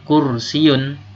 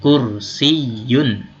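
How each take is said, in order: First: The vowels run together without a y sound. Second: A clear y sound comes before the ending. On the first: The speaker calls it wrong. "Jangan melafalkan kursiun" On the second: The speaker calls it right. "tapi kursiyun"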